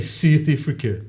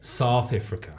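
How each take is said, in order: First: "South Africa" with vowels squeezed to "Sith Ifrica"; botched accent on "South Africa", thin i vowels; wrong South African accent. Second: "South Africa" as "Sowth Ifrica", lower; "South Africa" with open first vowel, South African style; correct South African accent. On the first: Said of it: "there's one thing people always get wrong with the accent". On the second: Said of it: "What do you say?". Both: Shown as a demonstration.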